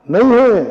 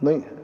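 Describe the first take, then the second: First: नहीं है pitched high and forceful; नहीं है as a high, falling declaration; emphatic repeat. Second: Said in the usual way. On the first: Real, not acted. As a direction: drive home नहीं है in a raised, louder voice. Repeats the answer emphatically to crowd.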